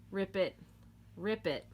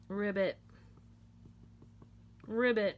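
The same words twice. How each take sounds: First: "rip it" with a crisp P; "rip it", P sound in the middle; RIP IT as words. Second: "ribbit", B sound in the middle; RIBBIT frog call. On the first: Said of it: "how that kinda sounds like". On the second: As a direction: say "ribbit" as one word, like a frog's croak. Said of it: "Knitters think that sounds like ribbit". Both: Shown as a demonstration.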